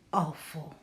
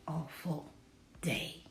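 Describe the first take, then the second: First: Said in the usual way. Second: Whispered. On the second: A narrator's reading. Sergio sulking about his day, whispered. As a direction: whisper it, unvoiced and soft. Reading Sergio's gloomy line.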